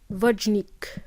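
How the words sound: The name is said as English speakers say it. The speaker calls it wrong. "when the native speakers try to pronounce my name, they pronounce it as"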